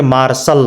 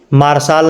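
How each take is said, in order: First: "मार्शल" ending in a short -səl; correct pronunciation. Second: "मार्शल" ending in a long -saal; wrong pronunciation. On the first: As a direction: keep the last vowel of "मार्शल" short, like अ. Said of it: "क्या पढ़ेंगे". ("मार्शल" के अंत में छोटा अ) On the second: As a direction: stretch the last vowel of "मार्शल" to आ. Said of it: "मार्शल नहीं पढ़ेंगे". ("मार्शल" को गलत ढंग से मार्साल बोलना) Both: Shown as a demonstration.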